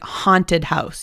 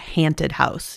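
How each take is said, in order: First: The first vowel of 'haunted' is an 'ah' sound. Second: The first vowel of 'haunted' is not 'ah'. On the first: The speaker calls it right. "pronounce it ah, like haunted house" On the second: The speaker calls it wrong. "You wouldn't say a haunted house"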